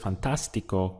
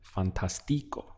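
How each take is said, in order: First: The stress is on the second syllable. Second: The stress is not on the second syllable. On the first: The speaker calls it right. "we need an accent over the A to indicate that the stress point is there" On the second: The speaker calls it wrong. "otherwise the pronunciation would be fantastico"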